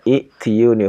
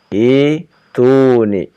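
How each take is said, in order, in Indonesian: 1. Bunyi 'y' diucapkan di tengah. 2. Tidak ada bunyi 'y' yang diucapkan di tengah. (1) "Asal katanya i'tiyuni, huruf ketiganya kas kasroti" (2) "Makanya di ya hilangkan ya ya-nya. Jadi ituni"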